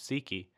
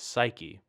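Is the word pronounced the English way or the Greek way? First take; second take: Greek; English. First: It is pronounced the original Greek way. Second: It is pronounced the modern English way. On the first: "the original Greek is psyche" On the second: "we often think of it as psyche in our modern English pronunciation"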